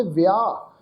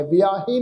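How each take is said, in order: First: ਵਿਆਹ ending on an open long aa; silent ਸਿਹਾਰੀ. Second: ਵਿਆਹੇ with an added -he syllable; wrong sounded ending. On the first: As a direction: say ਵਿਆਹ as 'viaa', no 'he'. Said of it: "ਇਹ ਸ਼ਬਦ ਦਾ ਉਚਾਰਨ ਕਰਾਂਗੇ". ('ਵਿਆਹ', ਅੰਤ ਵਿੱਚ 'ਹੇ' ਤੋਂ ਬਿਨਾਂ) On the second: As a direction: sound a 'he' at the end of ਵਿਆਹੇ. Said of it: "ਨਹੀਂ ਪੜ੍ਹਨਾ". ('ਵਿਆਹੇ', ਅੰਤ ਵਿੱਚ 'ਹੇ' ਬੋਲ ਕੇ) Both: Shown as a demonstration.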